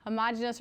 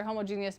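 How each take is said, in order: First: "Homogeneous" said as huh-MAH-juh-nus; huh-MOJ-uh-nus pronunciation. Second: "homogeneous" said as hoh-moh-JEE-nee-us; homo-GEE-nee-us pronunciation. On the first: Teacher giving both names for solutions, "Homogeneous" as huh-MAH-juh-nus. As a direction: say "Homogeneous" in four syllables, stressed on MAH. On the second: Teacher giving both names for solutions, "homogeneous" as hoh-moh-JEE-nee-us. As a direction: say "homogeneous" in five syllables, stressed on JEE. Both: Shown as a demonstration. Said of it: "Sometimes it's pronounced either way".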